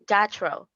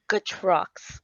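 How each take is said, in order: First: The name is said with a Canadian English accent. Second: The name is said with a French accent. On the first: "Canadian first" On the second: "And in French"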